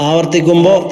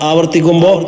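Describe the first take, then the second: No difference in how they are said.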